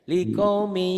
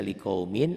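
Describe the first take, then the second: First: Likaumi recited high and loud, no final N; chanted likaumi, the N gone; N disappears. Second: Likaumin said with its final N sounded; likaumin, keeping the N audible; written form with N. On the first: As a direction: say LIKAUMI with the N swallowed, ending "mii". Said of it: "dibacanya N-nya hilang". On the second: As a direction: say LIKAUMIN as spelt, ending in "min". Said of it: "ada N-nya". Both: Shown as a demonstration.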